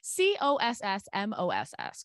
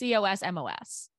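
First: The ending sounds like the word 'moss'. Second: It sounds like the ordinary word 'cosmos'. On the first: The name plays on her surname Moss. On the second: The name is the ordinary word.

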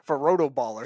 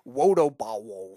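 First: The r and l sounds are pronounced clearly. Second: The r and l sounds become w sounds.

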